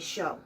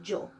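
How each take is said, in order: First: It is said in an Argentine accent. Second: It is said in a Colombian accent. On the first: "people from Argentina will say show" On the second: "in Colombian Spanish, we'll say yo"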